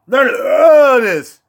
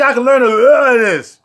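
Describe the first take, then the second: First: Slowly savored. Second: Said in the usual way. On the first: Shown as a demonstration. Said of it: "Almost said that L O word". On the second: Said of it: "I was about to say".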